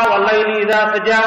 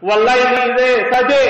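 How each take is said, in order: First: Said in the usual way. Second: "saja" read as "saje", final a turned to e, pitched up; Muammar's dialect reading. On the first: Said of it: "kalau kita biasa membaca". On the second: Shown as a demonstration. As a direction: recite it with "saje" in place of "saja". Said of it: "Muammar bacanya".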